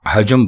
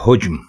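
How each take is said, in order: First: The first vowel is a, with a second a. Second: The first vowel is u, with no second vowel. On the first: The speaker calls it wrong. "वो हे के ऊपर भी ज़बर लगा देते हैं और जीम के ऊपर भी ज़बर" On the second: The speaker calls it right. "ये दुरुस्त है, यानी हे उसके ऊपर पेश"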